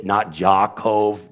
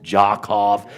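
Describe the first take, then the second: First: "Jakov" with a soft zh sound, slowly; wrong soft J. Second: "Jakov" said with a hard ch-like start; hard initial. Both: Shown as a demonstration.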